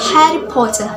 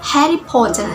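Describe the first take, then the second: First: It is spoken with a British accent. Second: The same.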